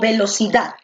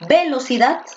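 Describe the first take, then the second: First: The stress is on the last syllable. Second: The stress is on the first syllable.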